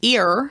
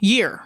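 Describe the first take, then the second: First: The word starts directly with the vowel. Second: The word starts with a y sound. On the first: This is the standard form of the word. "instead of ear" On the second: This is a regional country form of the word. "he would just say year"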